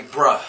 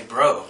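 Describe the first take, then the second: First: "bruh" with a short "uh" vowel; East Coast "bruh". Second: "bro" with a full "oh" vowel; home-style "bro". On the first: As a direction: say "bruh" ending on an open uh. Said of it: "here on the East Coast, people say". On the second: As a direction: say "bro" ending in a round oh. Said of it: "where I'm from, people say bro". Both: Shown as a demonstration.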